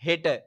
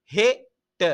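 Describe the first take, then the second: First: Said in the usual way. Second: ஹெட்ட split into he, then tta; syllable by syllable. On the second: Shown as a demonstration. Teacher modelling pronunciation for pupils, ஹெட்ட in split syllables. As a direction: sound out ஹெட்ட in two separate beats. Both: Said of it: "உச்சரிப்போட தந்திருக்குது பாருங்க".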